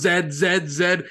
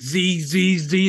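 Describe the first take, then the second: First: The letter is said as zed, British style. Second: The letter is said as zee, American style. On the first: The coworker's British usage. "she was going" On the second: The speaker's own American usage. "I was going"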